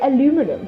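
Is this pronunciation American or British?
American. It is said with four syllables, American style. "In America, you may see this word and say aluminum"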